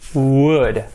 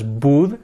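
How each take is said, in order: First: The W is made with an open mouth. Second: The W is made with closed lips. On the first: The speaker calls it right. "Todo abierto" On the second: The speaker calls it wrong. "No cerramos la boca, no es would"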